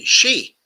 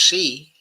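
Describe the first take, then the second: First: The name begins with an sh sound. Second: The name begins with an s sound. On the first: "I've always thought it was pronounced, okay, as uh, she" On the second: "Some people say it's pronounced as C"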